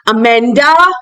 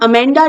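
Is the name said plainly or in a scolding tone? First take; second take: scolding; plainly. First: The name is said sharply, like a scolding parent. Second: The name is said plainly and calmly.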